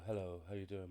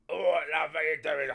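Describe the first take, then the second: First: It is said in a calm, full, sultry voice. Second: It is said in a loud, hyped-up voice.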